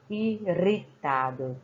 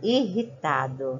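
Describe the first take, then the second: First: The middle R is a weak, light tap. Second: The middle R is a strong, forceful sound. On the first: The speaker calls it wrong. "Se eu fosse falar com um R só, olha como seria" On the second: The speaker calls it right. "A palavra, olha"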